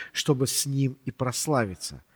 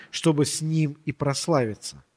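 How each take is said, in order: No difference in how they are said.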